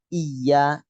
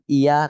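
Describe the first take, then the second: First: The y sound is held long and doubled. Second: The y sound is short and single. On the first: The speaker calls it right. "tapi iya" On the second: The speaker calls it wrong. "Jadi bukan iya"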